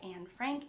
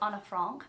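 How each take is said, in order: First: The name is said with an English pronunciation. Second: The name is said with its original-language pronunciation. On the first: The speaker calls it wrong. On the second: The speaker calls it right.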